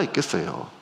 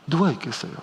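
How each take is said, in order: First: Said in the usual way. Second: 누가 pressed hard, the question falling away; stress on 누가. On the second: Shown as a demonstration. Preacher to congregation, pressing on 누가. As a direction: lean on 누가 as a challenge.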